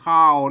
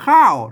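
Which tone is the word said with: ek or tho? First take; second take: ek tone; tho tone. First: The word is said with the ek tone. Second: The word is said with the tho tone. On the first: This is the Tai Lue pronunciation. "ไต้ลือไต้ยองมันก็ออกเป็นเสียงเอก" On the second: This is the standard Thai pronunciation. "เสียงโทรไทยโทรปกติ"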